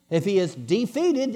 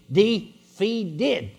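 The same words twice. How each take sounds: First: Said in the usual way. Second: "Defeated" broken up to bring out "feet"; syllable-by-syllable wordplay. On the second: Shown as a demonstration. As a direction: sound out "Defeated" slowly as de-FEET-ed. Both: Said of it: "it means he has no feet".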